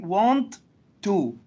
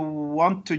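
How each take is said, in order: First: Both t sounds are pronounced separately. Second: The repeated t is pronounced only once. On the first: The speaker calls it wrong. "We would not say want to" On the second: The speaker calls it right. "we just pronounce it as once"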